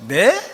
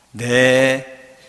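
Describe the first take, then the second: First: Loud, high questioning "네?"; surprised Mary. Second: Drawn-out, level "네", loud; accepting Mary. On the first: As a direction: react with a startled question. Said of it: "한마디로 표현이 되죠". (놀라서 되묻는 "네?") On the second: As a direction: give a long yes of consent. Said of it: "이 세 마디로 끝납니다". (길게 수긍하는 "네") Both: Acted.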